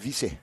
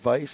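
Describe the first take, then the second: First: The name is said with a Polynesian pronunciation. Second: The name is said with an English pronunciation. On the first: The name is treated as a Polynesian name. "If it's uh, Polynesian, it might be Vice" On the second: The name is treated as an English name. "if it's an English uh, name, it's it's Vice"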